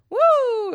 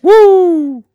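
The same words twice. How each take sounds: First: High loud whoa-howl; wolf howl woo. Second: High loud woo; woo howl. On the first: Shown as a demonstration. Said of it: "a whoa and a wolf howl mixed together". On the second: Retold or imitated. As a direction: whoop it.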